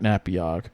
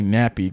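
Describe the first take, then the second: First: The ending sounds like the end of Patchogue. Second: The ending does not sound like Patchogue. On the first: The speaker calls it wrong. "not Napiag" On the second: The speaker calls it right. "I should say Napiag"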